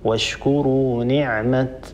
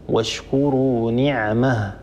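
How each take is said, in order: First: The last word ends with a t sound. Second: The last word ends with an h sound. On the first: The pause follows how the word is written in the Quran text. "نقف عليها بالتاء" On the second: The pause follows another reading tradition. "أبو عمرو يقف عليها بالهاء"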